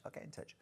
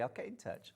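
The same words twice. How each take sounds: First: Whispered secret promise. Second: Said in the usual way. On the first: Pretend. Host whispering a promise to a viewer. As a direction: breathe it like a secret.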